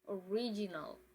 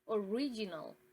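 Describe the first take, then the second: The two takes are said the same way.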